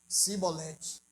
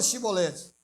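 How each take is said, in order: First: The word begins with an 's' sound. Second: The word begins with a 'sh' sound. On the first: This is the tribe that could not say it properly. The speaker calls it wrong. "Não conseguia falar" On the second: This is the password as the asking tribe says it. The speaker calls it right. "fala chibolete"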